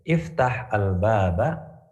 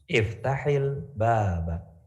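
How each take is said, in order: First: The words are said separately without a linking vowel. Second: The words are joined by an added i vowel.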